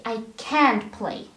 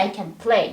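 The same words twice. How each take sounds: First: "can't" punched and held, "play" falling after it; stress on CAN'T. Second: "can" light and short, weight on "play"; unstressed CAN. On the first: Teacher showing what you say for the negative, stress on "can't". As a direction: put the weight on "can't". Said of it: "the stress goes to the modal verb". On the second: Teacher showing what you don't say for the negative, "can" unstressed. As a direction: pass lightly over "can" to land on "play". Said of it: "You don't say". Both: Shown as a demonstration.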